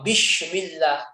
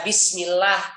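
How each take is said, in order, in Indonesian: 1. Diucapkan dengan bunyi sh. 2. Diucapkan dengan bunyi s biasa.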